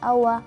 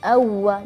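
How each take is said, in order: First: The w sound is single and short. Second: The w sound is doubled and held longer. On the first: The speaker calls it wrong. "jangan awa, awa. Kalau awa berarti wawnya seolah-olah hanya sekedar fathah saja" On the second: The speaker calls it right. "harus diperjelaskan suaranya atau sedikit menegaskan uh, suara huruf waw"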